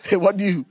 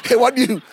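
First: "It wasn't you" through a chuckle; laughing denial. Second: Louder insisting "It wasn't you"; mock loud denial. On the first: Retold or imitated. Spouse laughing off partner's suspicion, chuckling denial. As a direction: giggle the denial away. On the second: Spouse insisting to partner, loud mock denial.

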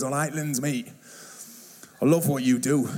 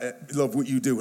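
First: A hint of a northern English accent, matey. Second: Said in the usual way. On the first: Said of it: "he's got a proper northern accent". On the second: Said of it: "he didn't just say".

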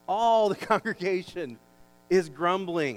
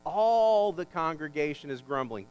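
First: All the congregation is grumbling, All punched loud; stress on All, louder. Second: All the congregation is grumbling, slow, leaning on All; stress on All. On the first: Pastor repeats the verse to the church, All punched louder. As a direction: hit All, then let grumbling fall. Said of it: "notice the emphasis here". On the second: Pastor points out the emphasis to the congregation, stressing All. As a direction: land hard on All, slowly. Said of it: "I want you to notice the emphasis here". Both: Shown as a demonstration.

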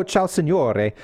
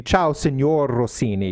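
First: Ciao, signore, ending on a clear "-ay"; signore with final E. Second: "signor Rossini" with the E dropped from signor; signor without final E. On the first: Greeting Mister Rossini without his name, signore with the E sounded. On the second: Greeting Mister Rossini by name, signor with no final E. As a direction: say "signor" ending on the R. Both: Shown as a demonstration. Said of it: "You drop the E".

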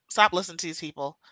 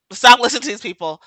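First: Said in the usual way. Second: Louder, fast, insistent command; louder repeat. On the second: Real, not acted. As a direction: hammer the warning home louder.

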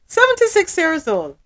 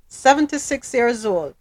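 First: Seventy-six pitched higher in shocked disbelief. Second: Said in the usual way. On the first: Real, not acted. Repeating the man's age in shocked disbelief. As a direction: say Seventy-six like you can't believe it.

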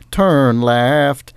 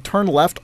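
First: "Turn left." sung as a little auto-tuned GPS jingle. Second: Said in the usual way. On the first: Retold or imitated. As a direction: do the sat-nav's exact musical phrase. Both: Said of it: "turn left always went".

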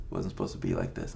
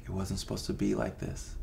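First: Dropped much lower and rushed, to himself; low fast repeat. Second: Said in the usual way. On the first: Retold or imitated. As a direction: repeat it lower and faster, half to yourself. Repeats the despairing thought.

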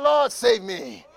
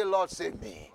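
First: Slower, louder shouted plea Lord, save me. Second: Said in the usual way. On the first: Shown as a demonstration. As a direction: call it out louder, drawn out. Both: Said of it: "Say louder".

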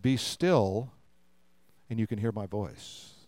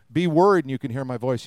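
First: Soft, low, fading away after a pause; hushed, still. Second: Firm, emphatic opening on the command; mock worried command. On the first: Acted. Preacher voices God's call to be still, hushed. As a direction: let the voice sink into stillness. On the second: Preacher voices what God didn't say, mock command. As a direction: push out the first words, then run on. Contrasts noisy worry with being still.

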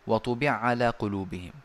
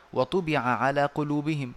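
First: وطبع على with the two ayn sounds merged into one doubled ayn; merged ayn reading. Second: Said in the usual way. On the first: Shown as a demonstration. Teacher demonstrating the Sousi merging in وطبع على. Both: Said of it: "فنقول".

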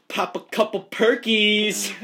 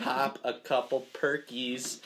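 First: Hyped announcement. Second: Slow careful enunciation. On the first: Acted. Hyping up the tongue twister. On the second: Shown as a demonstration. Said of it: "New tongue twister".

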